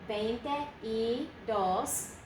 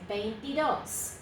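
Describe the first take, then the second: First: It is said as three separate words. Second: It is said as one word, dropping the e. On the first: The speaker calls it wrong. "but nobody says it that way" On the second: The speaker calls it right. "They drop that E and say veintidos"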